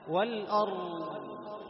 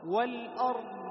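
First: والأرض sung very slow, راء stretched longer than ضاد; wrong reading. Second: والأرض very slow, ضاد held longer than راء; proper tajweed of والأرض, long ضاد; correct reading. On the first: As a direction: hold the راء in والأرض too long. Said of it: "لاحظ هكذا يقرأون". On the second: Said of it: "الضاد أطول". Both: Shown as a demonstration.

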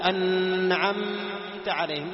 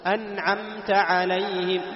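First: "أنعمت عليهم" with nun and mim wrongly held in a long hum; sung, drag out the ghunnah on the nun and mim of "أنعمت عليهم"; loud, slow "أنعمت عليهم" with exaggerated humming on nun and mim; overlong nasal hum. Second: "أنعمت عليهم" recited slow and loud, nun and mim short and distinct; slow tajweed "أنعمت عليهم" with crisp, unheld nun and mim; clear nun and mim. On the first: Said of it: "ما تقول أنعمت عليهم". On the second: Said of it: "هذه نون مظهرة وميم مظهرة". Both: Shown as a demonstration.

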